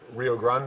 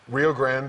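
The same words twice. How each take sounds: First: It is said with a Spanish-style pronunciation. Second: It is said with an English-style pronunciation. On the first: "how you pronounce it if you've had Spanish one oh one" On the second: "how most Anglos would pronounce it"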